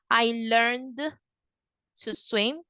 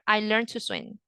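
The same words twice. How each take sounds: First: The D at the end of 'learned' is pronounced. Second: The D at the end of 'learned' is silent. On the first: The speaker calls it wrong. "You don't say" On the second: The speaker calls it right. "You just go to the next word"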